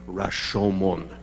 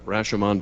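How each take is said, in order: First: The name is said with Japanese-style pronunciation. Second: The name is said with American-style pronunciation.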